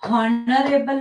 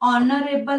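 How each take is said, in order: First: The word starts with an h sound. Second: The word starts with a vowel, no h. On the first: The speaker calls it wrong. "हॉनरेबल नाहीये" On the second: The speaker calls it right. "ऑनरेबल आहे ... उच्चार ऑने होतोय"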